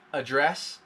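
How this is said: It is said the way English speakers in England do. "many people in England and other places in the world that speak English, they will say address"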